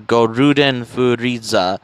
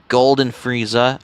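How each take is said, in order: First: It is said with a Japanese pronunciation. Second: It is said with an English pronunciation.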